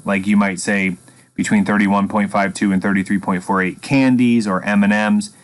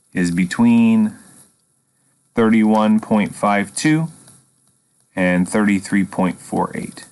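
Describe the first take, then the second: First: Said in the usual way. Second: Slow dictation. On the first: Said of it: "Sometimes it's appropriate to put units on the end". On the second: Shown as a demonstration. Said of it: "that's how we finish it".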